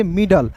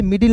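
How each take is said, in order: First: मिडल with a short "uh" before the L; "mid-al" pronunciation. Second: मिडिल with an "i" in the second syllable; "mid-il" pronunciation. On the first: Teacher giving students the taught reading, मिडल said "mid-ul". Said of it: "इसे पढ़ेंगे मिडल". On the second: Teacher showing a common misreading, मिडिल said "mid-il". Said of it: "इसे मिडिल नहीं पढ़ेंगे". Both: Shown as a demonstration.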